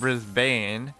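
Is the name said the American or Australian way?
American. It is said with an American pronunciation. The speaker calls it wrong. "instead of Brisbane"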